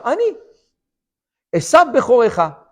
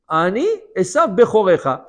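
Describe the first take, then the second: First: A short pause follows the first word. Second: The words run on without a pause. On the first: The speaker says I am me; the brother is the firstborn. "Il a fait une petite pause entre le mot Ani et entre le mot Esav Bechorecha" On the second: The speaker claims to be the firstborn brother. "Je suis Esav ton aîné"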